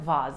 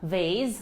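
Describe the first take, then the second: First: It is said with a British accent. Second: It is said with an American accent.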